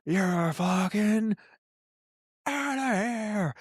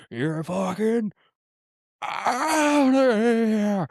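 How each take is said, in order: First: Slow, high, wailing "outta here" with a crack in the voice; milk it like a ham umpire tossing a player; umpire ejection call. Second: Drawn-out, high, wailing "outta here" with a break in the voice; mock umpire howling the ejection, much higher and slower; umpire ejection call. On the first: Pretend. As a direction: umpire tossing a player, hammed-up cry, much higher and slower. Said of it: "You're like". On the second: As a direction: stretch it out like a hammed-up ump throwing a player out. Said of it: "I'd be like".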